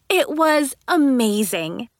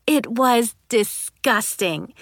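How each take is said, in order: First: Slow, gleeful rising amazement; slow delight, tune rising at the end; delighted, drawn out. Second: Slow and grossed out; slow disgusted sigh of a line; disgusted, drawn out. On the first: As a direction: savor how amazing it was. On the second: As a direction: drag out the disgust. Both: A narrator's reading. Contrast disgusting then amazing.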